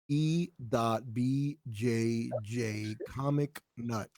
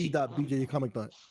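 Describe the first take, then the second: First: It is said more slowly and carefully. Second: It is said at a normal, quicker pace.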